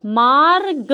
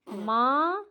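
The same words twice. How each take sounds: First: मार्ग said firmly with a clearly rolled र before ग; stressed middle R. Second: मार्ग drawn out softly, a long rising मा, then ग; word split apart. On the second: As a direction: softly stretch the vowel of मार्ग and separate the ending. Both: Shown as a demonstration. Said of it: "क्या बीच में आ रहा है ना र?".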